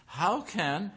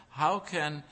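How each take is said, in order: Both takes have the same delivery.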